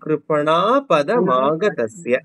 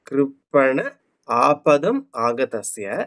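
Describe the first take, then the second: First: The first two words are merged into one word. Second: The first two words are said as separate words.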